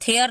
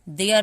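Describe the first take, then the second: First: The word begins with an aspirated t sound. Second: The word begins with a d sound. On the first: The speaker calls it wrong. "थेयर नहीं पढ़ेंगे" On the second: The speaker calls it right. "देयर पढ़ेंगे"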